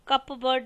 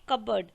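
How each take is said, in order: First: The p sound is pronounced. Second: The p sound is silent. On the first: The speaker calls it wrong. "कप बर्ड नहीं बोलेंगे" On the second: The speaker calls it right. "कबर्ड में पी silent है, आप बोलेंगे कबर्ड"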